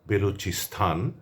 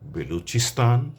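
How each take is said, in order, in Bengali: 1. শেষাংশটি মহাপ্রাণ 'sthan' উচ্চারণে বলা হয়। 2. শেষাংশটি সাধারণ 'stan' উচ্চারণে বলা হয়। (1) "এমন করে বলা চলবে না" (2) "আমরা বলবো"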